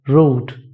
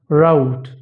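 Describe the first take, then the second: First: It is said in an Indian accent. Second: It is said in an American accent. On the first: "In Indian accent" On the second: "In American accent"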